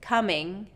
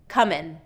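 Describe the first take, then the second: First: The word ends in a soft ng sound. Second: The word ends in a plain n sound. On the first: The speaker calls it right. "So instead of" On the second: The speaker calls it wrong. "more often I hear comin'"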